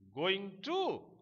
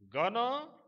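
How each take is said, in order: First: It is said in full as two words. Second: It is reduced and blended into 'gonna'.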